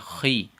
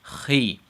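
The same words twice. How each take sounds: First: The syllable is said heavy and thick. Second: The same.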